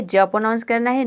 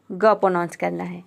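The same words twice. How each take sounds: First: "ज" said as a j sound; soft G sound. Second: "ग" said as a hard g; hard G sound. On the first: Teacher answers which sound G takes, soft G demo. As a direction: pronounce G as "ज", like English j. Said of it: "क्या pronounce करना है". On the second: Teacher gives the sound without E, I, Y, hard G demo. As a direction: pronounce G as "ग", like g in give. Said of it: "जी को ग pronounce करना है". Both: Shown as a demonstration.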